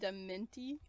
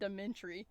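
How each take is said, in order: First: The word is said without an R sound. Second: The word is said with an added R sound. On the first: "I call it dementi" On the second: "I always want to add an R to it, like dementry"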